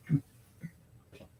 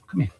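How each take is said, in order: First: Hushed unvoiced come here; whisper. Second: Said in the usual way. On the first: Real, not acted. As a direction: breathe Come here without voice. Repeats it hushed.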